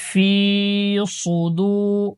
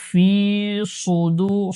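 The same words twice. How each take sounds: Both takes have the same delivery.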